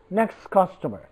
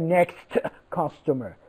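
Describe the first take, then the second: First: The t at the end of next is dropped. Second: The t at the end of next is pronounced. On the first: The speaker calls it right. "we do not pronounce t" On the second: The speaker calls it wrong. "We do not say"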